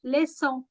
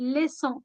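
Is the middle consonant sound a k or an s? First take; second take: s; s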